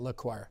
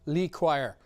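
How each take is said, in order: First: The first syllable has a short 'uh' vowel. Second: The first syllable has a long 'ee' vowel. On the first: The speaker calls it wrong. "We were saying Le Choir" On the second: The speaker calls it right. "chastised for not saying Lee Choir"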